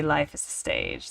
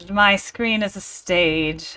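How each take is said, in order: First: A lower, grand stage pronouncement; mock theatrical proverb. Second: Said in the usual way. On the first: Theater kid hamming up a famous line, mock grand. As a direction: intone it like an old actor on the boards. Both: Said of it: "As they say".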